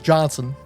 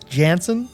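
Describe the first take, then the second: First: The first vowel sounds like the one in 'john'. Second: The first vowel sounds like the one in 'jam'. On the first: The speaker calls it right. "apparently it's pronounced Johnson" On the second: The speaker calls it wrong. "I'm trying to break the habit of saying Klaus Janson"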